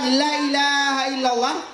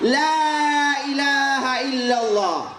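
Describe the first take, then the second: First: The first vowel 'la' is said short. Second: The first vowel 'la' is said long. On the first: There truly is a god besides God. The speaker calls it wrong. "la itu artinya sungguh" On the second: There is no god but God. The speaker calls it right. "Bagaimana juga pengucapannya?"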